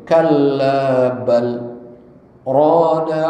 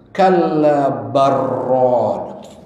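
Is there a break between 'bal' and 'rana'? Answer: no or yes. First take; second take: yes; no. First: A brief break comes after bal, without breathing. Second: The l merges into the r with no break. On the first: The speaker calls it right. "karena ada sakta nggak nggak didegomkan" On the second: The speaker calls it wrong. "Kalau nggak ada sakta, harusnya lam bertemu ro itu menjadi idgham"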